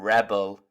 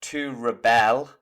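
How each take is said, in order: First: "rebel" as a noun, weight up front on REB; noun stress. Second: "rebel" as a verb, weight on BEL; verb stress. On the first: Teacher showing learners the noun form, "rebel" stressed at the start. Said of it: "the noun". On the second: Teacher showing learners the verb form, "rebel" stressed on the end. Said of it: "the verb is pronounced different". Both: Shown as a demonstration.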